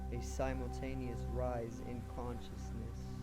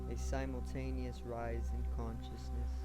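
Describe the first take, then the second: Both takes have the same delivery.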